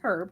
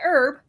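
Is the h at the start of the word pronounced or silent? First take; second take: pronounced; silent. First: The word starts with an h sound. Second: The word starts without an h sound. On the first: This is how English people say it. "He says herb because he's English" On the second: This is how Americans say it. "I say herb"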